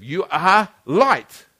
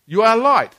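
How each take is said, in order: First: Slow, weighty declaration; slow, deliberate. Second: Higher and louder proclamation; forceful declaration. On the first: Preacher telling the congregation who they are, slowly and deliberately. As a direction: let each word land slowly. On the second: Preacher driving the point home to the church, louder and higher. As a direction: lift it up and proclaim it. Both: Shown as a demonstration. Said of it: "repeats it, second take stronger".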